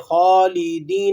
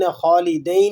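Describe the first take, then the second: First: The last vowel is a soft long 'ee'. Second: The last vowel is a diphthong 'ai'. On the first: The speaker calls it right. "नरमी से खालिदीन" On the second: The speaker calls it wrong. "खालिदैन ही नहीं पढ़ेंगे इसको"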